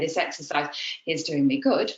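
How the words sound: It is broken up with some breaths.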